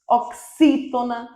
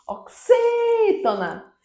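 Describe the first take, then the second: First: Said in the usual way. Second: "oxítona" with XÍ held long and much higher; stress on third-last syllable. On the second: Shown as a demonstration. Teacher marking the tonic syllable, "oxítona" with a long high XÍ. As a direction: call out "oxítona", stretching the XÍ up high. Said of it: "é a antepenúltima sílaba tônica".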